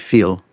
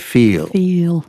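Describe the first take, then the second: First: The vowel glide is said quickly. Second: The vowel glide is drawn out slowly.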